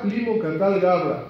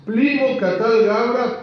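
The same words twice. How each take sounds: First: Said in the usual way. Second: Higher, louder, slow chant of a crowd outside; chanted, call it out like voices in the street; slow chanted accusation. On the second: A narrator's reading. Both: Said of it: "se oían ruidos diciendo".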